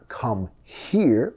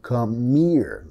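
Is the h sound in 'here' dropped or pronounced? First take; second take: pronounced; dropped. First: The h is pronounced and the words stay separate. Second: The h is dropped and the words run together.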